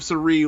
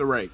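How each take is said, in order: First: The name ends with a 'ree' sound. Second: The name ends with a 'ray' sound. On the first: This is how American English speakers would say it. "how our English tongues" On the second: This is how the promotion pronounces the name. "That's how they pronounce it"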